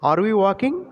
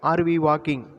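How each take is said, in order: First: The pitch rises at the end. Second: The pitch falls at the end. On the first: The speaker calls it right. "Rising tone. ... இந்த மாதிரி வாசிக்கணும்" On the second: The speaker calls it wrong. "இந்த மாதிரி சொல்லக்கூடாது"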